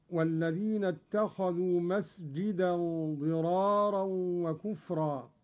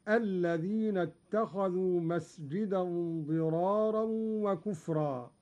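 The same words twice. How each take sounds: First: والذين begun with the waw, recited; reading with والذين. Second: الذين begun straight, no waw; Qalun reading without waw. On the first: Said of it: "قرأ قالون بحذف الواو". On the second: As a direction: drop the waw and start on الذين. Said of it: "بحذف الواو هكذا". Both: Shown as a demonstration.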